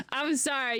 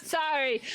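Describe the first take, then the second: First: High, giggly sorry; laughing apology. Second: Laughing apology. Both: Real, not acted.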